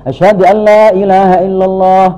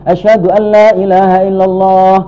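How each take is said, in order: Both takes have the same delivery.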